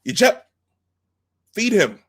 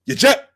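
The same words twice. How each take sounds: First: High, loud barked command; Klingon commander order. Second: High, loud barked Klingon command; Klingon commander order. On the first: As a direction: snap the order at the gunner. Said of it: "then he says". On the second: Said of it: "and he says". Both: Retold or imitated.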